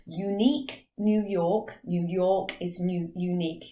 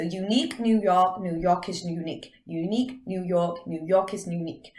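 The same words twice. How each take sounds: First: Slow, careful English accent, slightly stumbling; hesitant English-accented tongue twister; English accent attempt. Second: Lightly put-on American accent; tongue twister in an American accent. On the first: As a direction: try it in an English accent, word by word. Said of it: "I can't say it in English properly". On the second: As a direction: say it American, New York style. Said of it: "do it in an American accent". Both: Shown as a demonstration.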